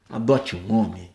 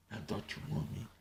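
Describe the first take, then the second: First: Said in the usual way. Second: Unvoiced mocking whisper. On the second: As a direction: breathe it with no voice. Whispered second take.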